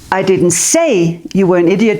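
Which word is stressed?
say. The word 'say' carries the main stress. It was shown without words. "but I stood like this"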